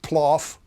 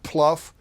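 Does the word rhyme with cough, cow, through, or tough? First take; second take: cough; tough. First: The word rhymes with cough. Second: The word rhymes with tough. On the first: "not ploff" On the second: "Not pluff"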